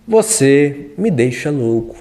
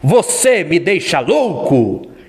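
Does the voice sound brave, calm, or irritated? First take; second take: calm; brave. First: It is said in a calm tone. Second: It is said in a brave tone. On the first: "Diga calmo" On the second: "Diga agora sendo corajoso"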